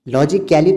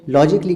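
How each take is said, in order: First: An extra vowel is sounded before the ending. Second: No extra vowel is sounded before the ending. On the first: The speaker calls it wrong. "लॉजिकली तो नहीं कह रहे हैं" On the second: The speaker calls it right. "लॉजिकली कह रहे हैं"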